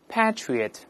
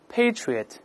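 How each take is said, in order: First: It is said in a British accent. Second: It is said in an American accent.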